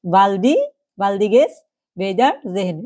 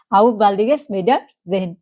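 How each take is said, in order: First: "baldiges Wiedersehen" said piece by piece with pauses; broken into parts. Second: "auf baldiges Wiedersehen" said slowly in one flow; whole phrase joined. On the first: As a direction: split "baldiges" and "Wiedersehen" into separate chunks. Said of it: "ভেঙে ভেঙে". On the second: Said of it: "যদিও একসাথে উচ্চারণ না করতে পারেন". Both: Shown as a demonstration.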